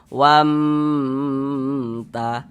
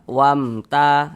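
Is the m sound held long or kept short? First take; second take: long; short. First: The m sound is drawn out long. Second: The m sound is short and clear. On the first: The speaker calls it wrong. "jangan dipanjangkan seperti itu" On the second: The speaker calls it right. "dibaca jelas, tidak berdengung, baca pendek saja"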